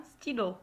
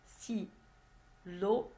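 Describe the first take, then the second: First: Said in the usual way. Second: STYLO split into sti, then lo; teacherly "stylo" in two isolated beats; syllable by syllable. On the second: Shown as a demonstration. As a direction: break "stylo" in two with a long pause between syllables. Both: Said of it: "deux syllabes".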